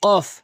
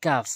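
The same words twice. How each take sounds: First: Emphatic "qof" for কফ, pitched up; heavy qof কফ. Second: কাফ with an ordinary front k; light kaf কাফ. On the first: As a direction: hit the back of the palate on কফ. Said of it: "জিহ্বার মাঝখান উপরে তালুর সঙ্গে". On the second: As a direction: keep the k of কাফ thin and light. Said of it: "আর কাফটি হচ্ছে কাফ". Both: Shown as a demonstration.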